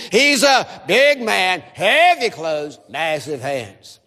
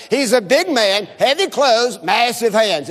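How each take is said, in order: First: Slow chant stretching "big", "heavy" and "massive"; stress on BIG, HEAVY, MASSIVE. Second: Said in the usual way. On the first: Shown as a demonstration. Preacher leads congregation in unison, slow stress on "big", "heavy", "massive". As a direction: draw out "big", "heavy", "massive", sinking lower at the end. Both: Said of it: "Emphasize the word big, heavy, and massive".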